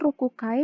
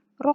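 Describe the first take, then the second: First: The word keeps the full syllable ku before kai. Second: The ku syllable is dropped, leaving a doubled k. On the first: The speaker calls it wrong. "bukan rokukai" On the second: The speaker calls it right. "melainkan rokai"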